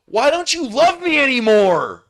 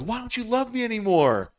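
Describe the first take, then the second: First: High, loud whine of a clingy ex; much higher mock plea; whiny pleading ex. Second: Mock pleading ex. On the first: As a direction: whine it like a jilted lover. Ex begs at the gate. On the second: Retelling the ex's plea.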